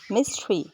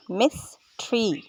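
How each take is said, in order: First: Said in the usual way. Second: मिस्ट्री slowly split as मिस, ट्री; split syllables. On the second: Shown as a demonstration. Teacher showing the parts of mystery, split syllables. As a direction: say मिस्ट्री with a gap after मिस. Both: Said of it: "syllables को अलग-अलग करने के लिए".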